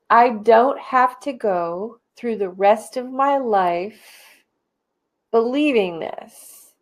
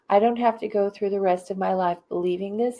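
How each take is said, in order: First: It is said with lively, enthusiastic energy. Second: It is said in a calm, plain way.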